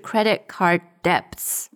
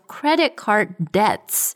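First: The b in debts is pronounced. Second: The b in debts is silent. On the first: The speaker calls it wrong. "不是" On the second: The speaker calls it right. "这个B 是不发音的"

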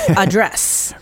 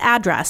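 First: The stress is on the second syllable. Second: The stress is on the first syllable. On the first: It is the verb. The speaker calls it right. "The stress is on the second syllable" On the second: It is the noun. The speaker calls it wrong. "not address"

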